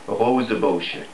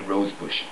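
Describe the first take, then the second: First: The name is said with its original non-English pronunciation. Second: The name is said like the English word rosebush. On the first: "if you wanted to really pronounce it properly, you would have to say" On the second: "I'll be happy with"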